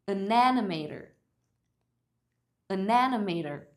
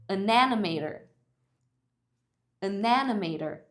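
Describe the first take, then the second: No difference in how they are said.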